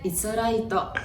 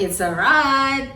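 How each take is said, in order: First: It is said with a Japanese accent and extra vowel. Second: It is said plainly, without an extra vowel.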